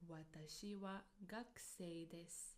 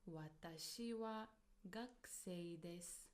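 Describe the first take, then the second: Both takes have the same delivery.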